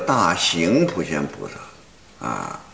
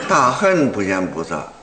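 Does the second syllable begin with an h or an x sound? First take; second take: x sound; h sound. First: The second syllable begins with an x sound. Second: The second syllable begins with an h sound. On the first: The speaker calls it wrong. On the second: The speaker calls it right.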